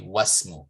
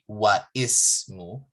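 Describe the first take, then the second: First: The i-vowel is dropped and the words join. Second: The i-vowel after wa is pronounced separately. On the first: The speaker calls it right. "You say wasmu" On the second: The speaker calls it wrong. "You don't say wa ismu"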